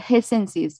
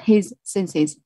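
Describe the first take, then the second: First: The two words run together without a break. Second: There is a brief stop between the words. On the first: The speaker calls it right. "There is a link. His senses" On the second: The speaker calls it wrong. "not his senses. Otherwise, you there is a stop between the two words"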